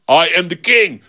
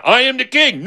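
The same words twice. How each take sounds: First: Mildly raised, insistent claim; insisting. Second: Much higher, agitated claim; heated insistence. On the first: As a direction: assert it in a back-and-forth argument. Two men argue over who's king. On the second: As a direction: pitch it way up, arguing back. Argument escalates. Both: Acted.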